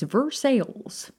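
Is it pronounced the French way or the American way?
American. It is said with American Indiana pronunciation.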